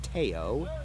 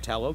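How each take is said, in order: First: The double L is not said as an L. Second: The double L is said as an L sound. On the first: This is the name's actual original pronunciation. The speaker calls it right. "It's actually pronounced Teo" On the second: This is the habitual local way of saying it. The speaker calls it wrong. "we pronounce it Tello because that's what we've always done"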